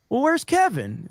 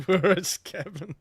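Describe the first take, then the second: First: Higher, casual imitated question; Jay. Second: Slow, puzzled mock question; puzzled echo. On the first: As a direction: ask it breezily, pitched well up. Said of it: "but then Jay goes". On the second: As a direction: draw it out as if searching around. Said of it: "we all look around".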